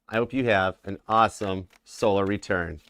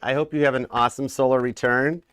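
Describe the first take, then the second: First: It is said in a Southern accent. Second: It is said in the speaker's usual accent.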